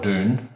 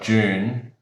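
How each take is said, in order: First: It begins with a plain 'd' sound, American style. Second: It begins with a 'j'-like sound, British style. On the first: "say in America" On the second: "the English say it differently"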